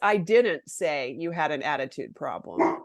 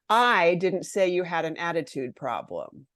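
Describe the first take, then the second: First: The stress falls on the word didn't. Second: The stress falls on the word I. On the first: The speaker denies having said it at all. "I didn't do it, right?" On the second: Someone else said it. "I didn't do it. Someone else did"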